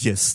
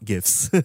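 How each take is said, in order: First: The word begins with a soft J sound. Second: The word begins with a hard G sound. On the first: The speaker calls it right. "it's actually pronounced GIFs, J with a J" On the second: The speaker calls it wrong. "not GIFs"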